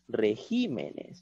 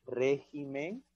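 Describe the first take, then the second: First: "regímenes" con la fuerza de voz en GÍ; acento en regímenes. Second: "régimen" con la fuerza de voz en RÉ; acento en régimen. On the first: (sílaba tónica GÍ en "regímenes") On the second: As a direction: carga la primera sílaba, RÉ, de "régimen". (sílaba tónica RÉ en "régimen") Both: Shown as a demonstration. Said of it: "Es distinto".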